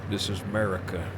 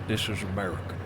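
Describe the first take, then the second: Both takes have the same delivery.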